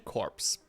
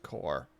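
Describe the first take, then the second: First: The word is said with a p sound. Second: The word is said without a p sound. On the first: "but I want to say corpse" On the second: "Corpse is pronounced core"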